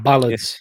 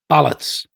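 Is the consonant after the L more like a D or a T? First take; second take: D; T. First: A D sound follows the L. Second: A clear T sound follows the L. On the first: The speaker calls it wrong. "and not" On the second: The speaker calls it right. "pronounce it ballots"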